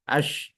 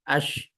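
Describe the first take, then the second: Both takes have the same delivery.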